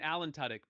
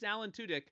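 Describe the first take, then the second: First: The surname does not sound like 'two dick'. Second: The surname sounds like 'two dick'. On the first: The speaker calls it wrong. "I have been pronouncing it" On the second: The speaker calls it right. "confirmed by the man himself, it is"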